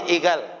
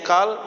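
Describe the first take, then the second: First: The consonant is a voiced g sound. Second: The consonant is a deep q sound. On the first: This is the Saudi dialect reading. "kalau membaca qaf, orang Saudi terutama, dibacanya ghain" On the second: This is the standard Arabic reading.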